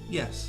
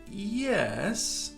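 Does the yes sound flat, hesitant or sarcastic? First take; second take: flat; hesitant. First: It is said flatly and plainly. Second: It is said hesitantly after a pause. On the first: The answer really is yes. "You can say it quite flat, as if you mean yes" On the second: Something unsaid suggests the answer is no. "We can be hesitant too"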